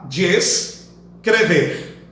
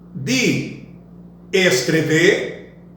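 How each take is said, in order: First: De and es merge into one syllable. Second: De and es are said as separate syllables. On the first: "ficará" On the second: "Ao invés de"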